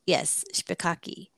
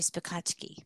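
First: The middle consonant is a plain k sound. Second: The middle consonant is a ch sound. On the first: The speaker calls it wrong. "that doesn't sound right" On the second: The speaker calls it right. "That's the right"

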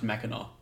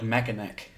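First: The name ends with an open aw sound. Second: The name ends with a hard k sound. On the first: "but it's pronounced Mackinac" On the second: "it's spelled like Mackinac"

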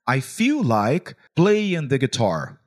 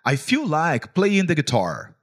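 First: It is said slowly. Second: It is said at normal speed.

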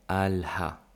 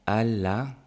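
First: It ends with a clear final 'ha' sound. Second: It ends without a final 'ha' sound.

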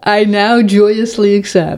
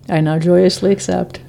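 First: It sounds sincere and convinced. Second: It sounds half-hearted and unconvinced.

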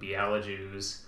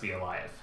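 First: The j is said like English j. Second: The j is said like English y. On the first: The speaker calls it wrong. "So I get a lot of Bielajews" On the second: The speaker calls it right. "the J sounds like Y, and then the W sounds like a V"

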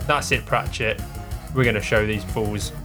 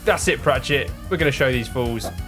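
First: The line is said plainly, without extra force. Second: The line is said forcefully, with a full voice.

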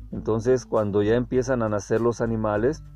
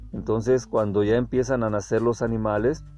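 No difference in how they are said.

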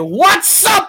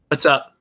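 First: It is said loudly, with high energy. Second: It is said flatly, with low energy. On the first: The speaker calls it right. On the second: The speaker calls it wrong.

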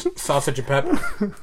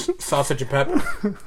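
First: Each word is said separately and distinctly. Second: Each word is said separately and distinctly.

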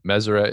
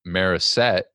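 First: The name is said with all sounds in place. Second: The R and S sounds trade places. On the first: The speaker calls it right. "the correct way to pronounce it" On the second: The speaker calls it wrong. "they just replace the R and the S"

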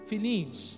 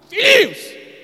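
First: It is said in a gentle tone. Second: It is said in an angry tone.

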